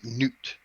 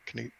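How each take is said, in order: First: The name starts with an N sound. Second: The name starts with a hard K sound. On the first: "it's enunciated as Newt" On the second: "it's a hard K"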